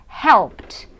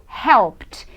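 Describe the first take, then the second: The two takes are said the same way.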